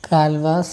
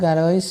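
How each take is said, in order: First: The name is said as two syllables, Gal-vas. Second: The name is said as three syllables, Ga-lo-is. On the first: "pronunciation പ്രകാരം ഗാൽവാസ് എന്നാണ് പറയുക" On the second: "ചിലവർ ഗാലോയിസ് എന്ന് പറയാറുണ്ട്"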